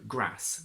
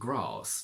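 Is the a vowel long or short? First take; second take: short; long. First: The vowel is short. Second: The vowel is long.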